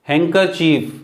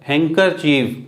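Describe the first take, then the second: Both takes have the same delivery.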